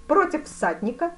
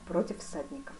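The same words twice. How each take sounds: First: "всадника?" as a loud, high question rising at the end; challenging question. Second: "всадника" softer, falling to a full stop; calm confirmation. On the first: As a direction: ask "Против всадника?" loudly, pitch raised. Duke questions, fencer echoes as answer. (громкий вопрос «Против всадника?» с подъёмом тона) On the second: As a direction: answer "Против всадника" evenly, tone falling. Fencer calmly confirms. (спокойный ответ «Против всадника» с падением тона) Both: A narrator's reading.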